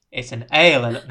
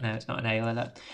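First: "ale alert" said loud, "ale" stressed; joke mispronunciation. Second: Said in the usual way. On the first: Retold or imitated. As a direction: hit "ale" as in beer, louder.

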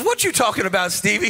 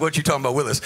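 First: Said in the usual way. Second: Lower, lightly voiced sitcom kid catchphrase; a hint of the famous TV kid line, dropped low; mild mock sitcom catchphrase, low. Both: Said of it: "He sounds like".

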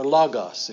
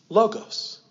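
First: "logos" with open ah vowels, LAH-gahss; Greek pronunciation. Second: "logos" with long O in both syllables, LOH-gohss; English pronunciation. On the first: Preacher correcting himself for congregation, "logos" as Greek LAH-gahss. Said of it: "if we had good Greek pronunciation". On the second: Preacher introducing the word to congregation, "logos" as English LOH-gohss. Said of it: "That's our English coming out". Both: Shown as a demonstration.

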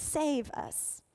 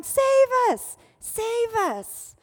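First: Said in the usual way. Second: Loud, high imploring cry; shouting. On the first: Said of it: "the word actually means". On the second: Retold or imitated. Crowd crying out to their Messiah, shouting. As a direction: cry out like a crowd calling for rescue. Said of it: "So they're actually shouting".

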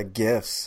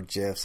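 First: Gifs with a hard g as in gift. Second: Gifs with a soft g, like jifs. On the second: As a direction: say gifs with an opening j sound. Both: Shown as a demonstration. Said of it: "however you say it".

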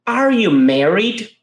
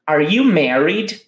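First: Slow and careful, every word clear; slow model for repetition. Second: Said in the usual way. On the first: Shown as a demonstration. Teacher asks students to repeat, slow careful model. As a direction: model it slowly so they can repeat. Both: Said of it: "Então, repita comigo".

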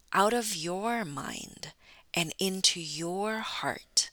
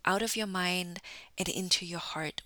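First: Slow, with YOUR drawn out both times; spaced-out phrase, long emphatic "your"; stress on YOUR. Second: Said in the usual way. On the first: Real, not acted. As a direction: lean on each "your", unhurried. Restates motto, stressing the listener's own.

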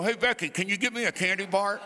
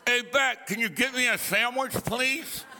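First: Fast, laughing words out of the side of the mouth; side-of-mouth talk. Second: Side-of-mouth talk. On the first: Preacher shows his old side-of-mouth habit to the congregation, fast and laughing. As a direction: mumble sideways through one corner of the lips. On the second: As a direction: lay the crooked mouth on thick. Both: Shown as a demonstration. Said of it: "talked out of the side of my mouth".

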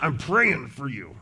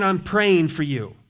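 First: A flat, dutiful "I'm praying for you"; grudging. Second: Said in the usual way. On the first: Shown as a demonstration. Pastor mocking a half-hearted promise to pray, grudging. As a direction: say it like a chore you're stuck with. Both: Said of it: "But it's not".

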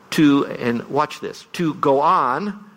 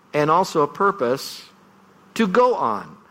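First: "to go on" drawn out slowly, words spaced apart; stress on to go on. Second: "on" hit as a place to stand; stress on go on. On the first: Pastor showing congregation the emphasis, stressing "to go on". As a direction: lean on "to go on" as moving forward. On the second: Pastor contrasting emphasis for congregation, stressing "on". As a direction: push the word "on" hard. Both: Shown as a demonstration. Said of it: "the emphasis can actually change the meaning".

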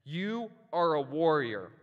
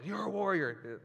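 First: Slow, louder, stern officer's charge; stern police officer. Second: A higher, clipped imitation of a cop barking it; mock the officer's blunt delivery, lightly; police officer voice. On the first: Retold or imitated. Reading the police officer's letter to the congregation, a stern charge. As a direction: hand down the words like a cop giving orders. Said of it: "that's how he talks". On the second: Pastor imitating how his police officer friend talks, light mock bark. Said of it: "he's a police officer, so that's how he talks".

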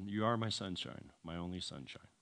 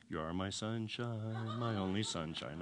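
First: Said in the usual way. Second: Softly sung, slow and low; singing in his head. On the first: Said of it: "I'll tell you the words". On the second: Retold or imitated. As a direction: sing it quietly, drawing out "sunshine". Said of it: "hearing the song in my mind".

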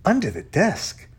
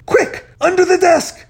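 First: DESK rising as a question; puzzled question. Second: High, loud frantic order; desperate shout. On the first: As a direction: ask it puzzled, voice lifting on "desk". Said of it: "asked Quentin". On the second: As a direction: shout as if about to be caught. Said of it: "when Z shouted". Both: A narrator's reading.

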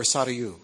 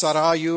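First: Sarayu with SA stressed; original pronunciation, first-syllable stress. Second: Sarayu with RA stressed; original pronunciation, second-syllable stress. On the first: Correcting the joke version for audience, first-syllable stress on Sarayu. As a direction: hit the first syllable of Sarayu, light middle. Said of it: "either the first or second syllable". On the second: Correcting the joke version for audience, second-syllable stress on Sarayu. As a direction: lean on the middle syllable of Sarayu. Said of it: "in the original language". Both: Shown as a demonstration.

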